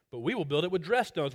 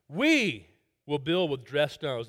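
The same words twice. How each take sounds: First: Said in the usual way. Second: "we" leaned on, then "we will build with dressed stones" at a slow pace; slow and proud, with all the weight on "we"; stress on WE. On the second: Shown as a demonstration. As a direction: hit the word "we" to show their boast. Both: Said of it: "the emphasis there is on that pronoun "we".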